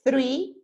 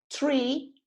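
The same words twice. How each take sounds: First: Three said a bit louder with a th; three, the number. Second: Tree with a t, higher and rising. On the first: Teacher repeats the number three for students. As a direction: voice the th clearly in three. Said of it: "Three, the number". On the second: Teacher repeats tree as the word for árbol. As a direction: hit the t in tree. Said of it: "Tree, el árbol". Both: Shown as a demonstration.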